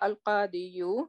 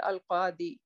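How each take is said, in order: First: It ends with an added 'yu' syllable. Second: It ends on 'di' with no added syllable. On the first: The speaker calls it wrong. "but we don't say al-qadi you" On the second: The speaker calls it right. "rather we say al-qadi"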